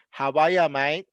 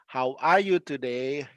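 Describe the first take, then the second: First: Australian "How are ya, mate", R dropped; casual Australian greeting, rising on "mate"; Australian slang greeting. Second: Said in the usual way. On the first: Shown as a demonstration. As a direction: run "are ya" together, Aussie style. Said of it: "you usually say". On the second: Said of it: "they usually s".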